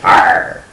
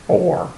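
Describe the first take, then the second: First: R as a clipped pirate-ish R; R, clipped and unvoiced; R said short. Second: R drawn out like "or" by a pirate; pirate R, sounding like "Or". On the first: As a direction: say R as a flat short R. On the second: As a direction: say R as the word Or. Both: Shown as a demonstration. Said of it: "Is it or or R?".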